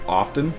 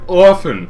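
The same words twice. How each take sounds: First: The t in the middle is pronounced. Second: The t in the middle is silent. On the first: The speaker calls it wrong. "I'd always pronounce it often" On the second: The speaker calls it right. "You don't say soften or listen. You say often"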